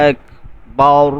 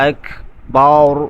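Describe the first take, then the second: Both takes have the same delivery.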